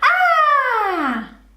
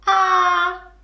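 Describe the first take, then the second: First: It is said in a happy voice. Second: It is said in a sad voice.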